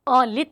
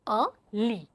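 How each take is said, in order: First: The final t sound is pronounced. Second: The final t sound is silent. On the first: The speaker calls it wrong. "लित नहीं पढ़ेंगे" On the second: The speaker calls it right. "A ली is your bed"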